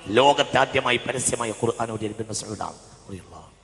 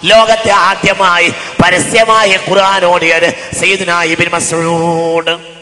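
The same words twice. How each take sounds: First: Said in the usual way. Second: Loud intoned proclamation, long final name; sing-song preaching. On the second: Shown as a demonstration. Preacher proclaiming the first public reciter, loud chanted preaching. Chanted statement, then spoken again.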